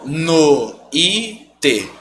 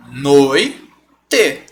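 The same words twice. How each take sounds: First: Noite as "no... í... te"; three slow separate beats in noite, strong i; wrong syllable split. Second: Noite slowly as "noi... te"; correct syllable split. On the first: Teacher showing what not to do, noite as no... í... te. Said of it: "O i não tem essa força". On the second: Teacher separating syllables, noite in two beats noi... te. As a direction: keep oi together in noite, pause, then te. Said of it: "Então eu vou separar". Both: Shown as a demonstration.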